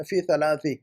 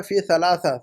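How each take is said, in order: First: ثلاثی ending in a long "-i"; correct case ending. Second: ثلاثہ ending in an open "-a"; wrong case ending. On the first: Teacher corrects student after the preposition, correct case ending. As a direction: say ثلاثی with final "-i", not "-a". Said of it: "تو فی کا effect ڈالیے". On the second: Teacher quotes student's written mistake, wrong case ending. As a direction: say ثلاثہ with final "-a", not "-i". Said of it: "ثلاثہ نہیں نا". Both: Shown as a demonstration.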